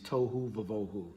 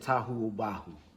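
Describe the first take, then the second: First: The phrase is said with v sounds. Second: The phrase is said with b sounds. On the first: This is the commonly recognized modern pronunciation. "the standard form for pronouncing it is tohu vavohu. We know ancient Hebrew did not have v's in it" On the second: This is closer to the ancient pronunciation. "We would say tahu ubahu or something to that form"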